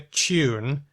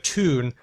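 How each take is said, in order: First: A 'y' sound comes before the vowel. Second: No 'y' sound comes before the vowel. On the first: "we keep some and drop others" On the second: "we drop more of the yods"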